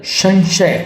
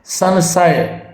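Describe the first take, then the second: First: संशय with sh sounds; corrected sibilant. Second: संशय with plain s sounds; wrong sibilant. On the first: Teacher giving students संशय with hissy sh. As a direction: say संशय as "shan-shay". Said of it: "क्या होगा, संशय". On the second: Teacher showing the error, संशय with plain s. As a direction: say संशय as "san-say". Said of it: "ये बिल्कुल गलत है". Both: Shown as a demonstration.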